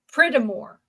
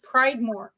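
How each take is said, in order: First: The first syllable has a short 'ih' vowel. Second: The first syllable has the long 'eye' vowel. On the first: The speaker calls it wrong. "make it a harder I" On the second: The speaker calls it right. "it's Pride then more"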